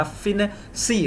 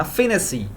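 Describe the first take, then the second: First: फिनेसी said slowly, drawn out in parts; slow word demonstration. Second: Said in the usual way. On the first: Shown as a demonstration. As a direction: stretch फिनेसी out, softly, piece by piece. शिक्षक शब्द तोड़कर दोहराते हैं. (फिनेसी को धीरे-धीरे खींचकर बोलना)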